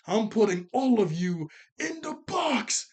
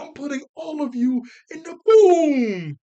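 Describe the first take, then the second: First: Slow, higher, louder villain threat; menacing Granny. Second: High, very loud, slow hammed-up shout; mock villain yell. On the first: Retold or imitated. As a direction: draw out the threat like a scheming granny. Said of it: "She goes". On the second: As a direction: bellow the threat like a cartoon villain. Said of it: "She was like".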